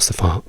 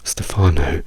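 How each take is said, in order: First: The final o is a short pure vowel. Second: The final o glides like in go. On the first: "non diciamo Stefano" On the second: "dobbiamo per forza dire O"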